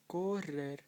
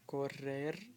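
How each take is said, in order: First: The stress is on the first syllable. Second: The stress is on the last syllable. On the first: The speaker calls it wrong. "or you don't say correr" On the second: The speaker calls it right. "They all have it on the end"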